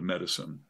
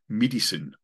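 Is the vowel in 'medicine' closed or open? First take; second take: open; closed. First: The vowel is more open, in a usual American way. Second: The vowel is very closed, in a South African way. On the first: "instead of medicine" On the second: "They'll say, like, medicine ... it's very, very, very closed down"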